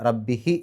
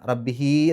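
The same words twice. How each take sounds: First: The final vowel is kept short. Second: The final vowel is drawn out long. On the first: The speaker calls it right. "റബ്ബിഹി എന്നേ പറയുള്ളൂ" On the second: The speaker calls it wrong. "റബ്ബിഹി എന്ന് പറയില്ല"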